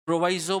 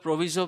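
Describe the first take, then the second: First: प्रोवाइजो said with a long "aai" in the middle, pro-VAI-zo; pronunciation provaizo. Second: प्रोविजो said with a short "i", pro-VI-zo; pronunciation provizo. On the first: Teacher gives students the term as प्रोवाइजो, pro-VAI-zo. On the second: Teacher gives students the other form प्रोविजो, short i, pro-VI-zo. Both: Shown as a demonstration. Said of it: "दोनों सही हैं".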